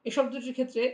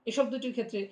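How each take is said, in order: No difference in how they are said.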